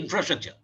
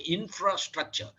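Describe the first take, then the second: First: The word is run together as one unit. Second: The word is split into two stressed parts. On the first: The speaker calls it wrong. "Don't say infrastructure" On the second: The speaker calls it right. "you split it into two and give a stress on some of the word"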